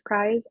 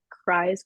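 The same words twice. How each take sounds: First: Cries repeated with a rising lift; doubled cries, the second one lifted; stress on cries. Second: Said in the usual way. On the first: Shown as a demonstration. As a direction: lean on cries to mean really crying. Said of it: "like, cries".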